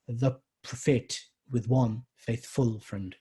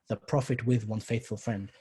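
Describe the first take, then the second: First: The beats fall on the odd syllables. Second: The beats fall on the even syllables. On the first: The speaker calls it wrong. "you don't do it the other way around either" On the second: The speaker calls it right. "you read it as"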